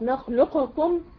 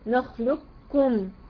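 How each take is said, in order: First: The qaf is released with an echoing bounce. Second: The qaf vanishes completely into the kaf. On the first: The merging of the letters is broken. "لو انا قلقلت القاف نخلقكم" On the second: The first letter is fully absorbed. "ادغام كامل ... كأن القاف دي مش موجودة"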